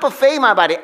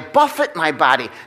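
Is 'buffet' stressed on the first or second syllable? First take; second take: second; first. First: Buffet is stressed on the second syllable. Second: Buffet is stressed on the first syllable. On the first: Feeding the body at an all-you-can-eat meal. The speaker calls it wrong. "not buffet my body" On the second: Striking or disciplining the body. The speaker calls it right. "what he really says is"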